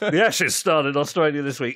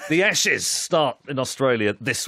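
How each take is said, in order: First: It is said in his normal speaking voice. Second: It is said in a put-on presenter voice.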